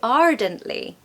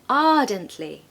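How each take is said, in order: First: The R after the first vowel is pronounced. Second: The R is silent, leaving an open vowel. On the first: "If I had a different accent, I would say ardently" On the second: "in the modern received pronunciation accent, we say ardently"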